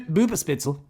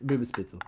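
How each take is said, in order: First: Said in the usual way. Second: Laughing repeat. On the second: Shown as a demonstration. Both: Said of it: "I'm trying my best".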